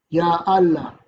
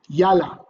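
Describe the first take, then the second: First: The phrase is said in its full form. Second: The phrase is contracted into a shorter form.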